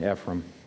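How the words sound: It is said in a Southern accent. "I like the southern pronunciation"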